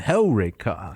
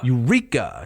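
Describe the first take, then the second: First: The stress is on the first syllable. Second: The stress is on the second syllable. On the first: The speaker calls it right. "It goes on Hellrika" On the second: The speaker calls it wrong. "They would put the emphasis on the penult"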